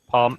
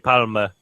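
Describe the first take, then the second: First: The word ends on the m with no vowel. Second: An extra vowel is sounded after the m. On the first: The speaker calls it right. "You can say palm like essentially the same" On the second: The speaker calls it wrong. "you don't need to say palma like if you're like super"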